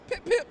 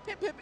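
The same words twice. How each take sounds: First: Loud, very high "pip, pip"; mock-aggressive, punched high and loud; get-out-my-face dismissal. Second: Friendly, inviting. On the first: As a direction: fire it off to send them packing. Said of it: "Get out my face". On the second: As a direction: gently beckon them in, lightly and high. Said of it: "I like you. I'm inviting you in". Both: Shown as a demonstration.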